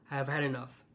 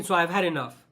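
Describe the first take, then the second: First: Drops much lower and softer, worn out; quiet, fed up. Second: Said in the usual way. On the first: Real, not acted. Vlogger repeating to viewers, quiet and exhausted. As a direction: let it sink into a tired, quiet sigh of a line.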